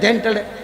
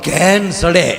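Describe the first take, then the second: First: The phrase is spoken with a lisp. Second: The phrase is spoken clearly.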